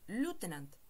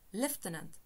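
First: It is said in an American accent. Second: It is said in a British accent. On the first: "Kaj en Usono" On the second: "En la brita angla, ĝi estas prononcata"

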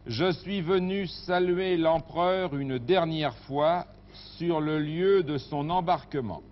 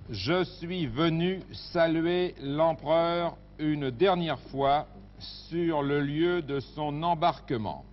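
First: The sentence is read at a faster pace. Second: The sentence is read at a slower pace.

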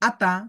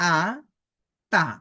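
First: The two syllables are said joined without a break. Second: The two syllables are said separately with a break. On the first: "একসাথে উচ্চারণ করব" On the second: "আলাদা আলাদা উচ্চারণ করব"

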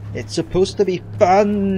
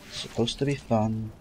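First: It is said in an exaggerated, mocking way. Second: It is said in a plain, flat way.

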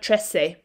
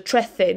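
First: The c is pronounced as an s sound. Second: The c is pronounced as a th sound. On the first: The speaker calls it wrong. "not trece" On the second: The speaker calls it right. "you say that as a th sound, as if you were going to say the in English"

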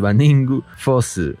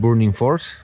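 First: The title is said with Japanese-style syllables. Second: The title is said with English-style sounds. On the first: "En japonés se le conoce como el Baningu Fossil" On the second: "En realidad es el Burning Force, como lo conocerán ustedes"

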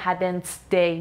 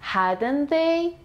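First: The 'th' of 'they' sounds like a stop. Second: The 'th' of 'they' is soft, tongue between teeth. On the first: The speaker calls it wrong. "نمیگم hadn't they" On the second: The speaker calls it right. "میگم hadn't they. ... زبون به سق، بین دوتا دندون"

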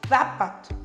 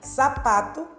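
First: The word begins with a th sound. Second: The word begins with a plain s sound. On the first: This is how it is said in Spain. "Ele morde a língua pra falar" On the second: This is how it is said in Spanish America. "a gente fala sapo, ... e fala sapato, ... do mesmo jeito"

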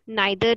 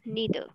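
First: The first vowel sounds like 'eye'. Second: The first vowel sounds like 'ee'. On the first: The speaker calls it wrong. "इसको नाइदर नहीं बोलना" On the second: The speaker calls it right. "It is नीदर"

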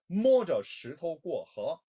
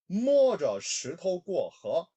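The two takes are said the same way.

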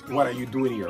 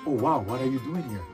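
First: It sounds suspicious and unwelcoming. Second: It sounds amazed and warmly welcoming.

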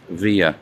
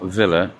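First: The middle consonant is a Y sound. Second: The middle consonant is a clear L sound. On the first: The speaker calls it right. "When there's two L's, you pronounce it as a Y" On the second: The speaker calls it wrong. "So it's not Villa"

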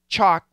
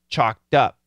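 First: The word ends with a T sound. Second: The word ends with a D sound. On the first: "even though isolated, it's a T" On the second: "When we link it, it changes back to a D"

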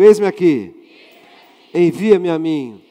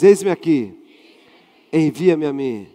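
First: It is said loudly and forcefully. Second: It is said at normal, softer volume.

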